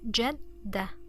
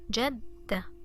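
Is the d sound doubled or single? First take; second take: doubled; doubled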